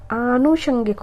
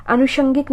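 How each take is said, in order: First: आनुषंगिक with long opening 'aa'; correct pronunciation. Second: अनुषंगिक with a short first a; wrong pronunciation. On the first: Teacher correcting students, long aa in आनुषंगिक. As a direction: hold the first vowel of आनुषंगिक. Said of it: "आनुषंगिक होता है". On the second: Teacher showing the mistake, short a in अनुषंगिक. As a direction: clip the opening vowel of अनुषंगिक. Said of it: "अनुषंगिक नहीं होता". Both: Shown as a demonstration.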